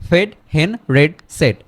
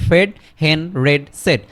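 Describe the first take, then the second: The two takes are said the same way.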